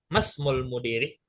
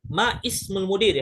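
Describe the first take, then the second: First: The vowel before 'smul' is dropped and merged. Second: The vowel before 'smul' is pronounced separately. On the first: The speaker calls it right. "masmul mudiri, begitu" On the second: The speaker calls it wrong. "Enggak enggak kita bilang ma ismul mudiri, hada khata"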